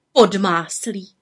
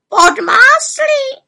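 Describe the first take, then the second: First: Said in the usual way. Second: Very high, loud, drawn-out squawk; raven croak. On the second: A narrator's reading. Raven echoing the botched rain, incredulous croak. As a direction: croak it back in disbelief. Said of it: "krákal havran".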